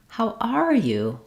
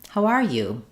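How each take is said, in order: First: It is said high, with a lengthened "are". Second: It is said warmly with a slight pitch rise. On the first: "Even higher pitch and more length on the stress word are" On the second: "Sounds a little friendlier. I'm rising up a little bit"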